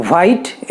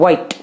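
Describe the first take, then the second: First: "white" said as the wrong version, for contrast; wrong pronunciation. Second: "white" said slowly, starting with a w sound; correct pronunciation. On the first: Teacher showing the wrong "white" before correcting it. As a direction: give the mistaken "white". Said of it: "it should not be". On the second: Teacher slowly modelling "white" for the class. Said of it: "it should be white". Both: Shown as a demonstration.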